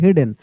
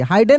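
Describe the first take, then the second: First: The first vowel sounds like 'it'. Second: The first vowel sounds like 'eye'. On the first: The speaker calls it right. "उसको हिडन पढ़ देंगे" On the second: The speaker calls it wrong. "हाइडन नहीं पढ़ेंगे"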